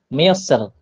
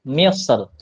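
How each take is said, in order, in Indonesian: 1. R di akhir itu ringan dan tipis. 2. R di akhir itu ringan dan tipis.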